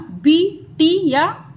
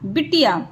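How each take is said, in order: First: बिटिया slow and higher; slow model; slow drawn-out. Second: Said in the usual way. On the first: Shown as a demonstration. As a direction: stretch बिटिया. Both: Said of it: "teacher drills words".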